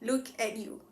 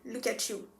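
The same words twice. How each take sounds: First: The three words are said separately and distinctly. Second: The words run together with a ch sound. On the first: "like three separate words" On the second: "we usually pronounce the word look at you as in look at you"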